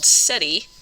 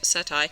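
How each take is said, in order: First: The word ends with an 'ee' sound. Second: The word ends with an 'eye' sound. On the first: The speaker calls it wrong. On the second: The speaker calls it right.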